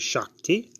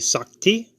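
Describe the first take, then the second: First: The word begins with an sh sound. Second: The word begins with a plain s sound. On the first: "some say Shakti" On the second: "Some say Sakti"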